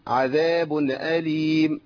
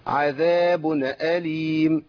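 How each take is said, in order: Both takes have the same delivery.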